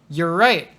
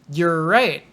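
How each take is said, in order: No difference in how they are said.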